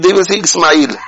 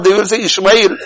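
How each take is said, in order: First: The name is said in book-reading style. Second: The name is said in everyday calling style. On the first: This is how people say the name when reading it. "But when they read" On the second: This is how people say the name when calling someone. "When they call each other out"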